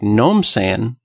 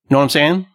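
First: The first words are slurred into one syllable. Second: Each word of the phrase is said clearly.

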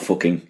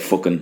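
First: The word ends with a final g sound. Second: The word ends without a final g sound. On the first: This is the standard form. "not fucking" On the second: This is the local everyday form. "he'd leave out the G on the end of fucking, because we say fucking"

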